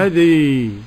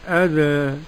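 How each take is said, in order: First: The final vowel leans strongly toward an i sound. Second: The final vowel leans slightly toward an e sound. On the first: "الإمالة بقى الكبرى" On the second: "التقليل أذى"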